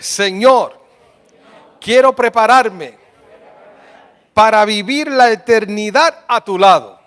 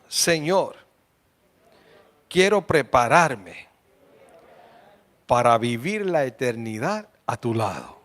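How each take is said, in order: First: It is said loudly and strongly. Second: It is said at normal, softer volume.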